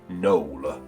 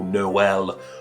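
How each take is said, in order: First: The name is said as one syllable. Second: The name is said as two syllables. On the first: "my gut instinct is to pronounce this name that way" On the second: "that two syllable Noel"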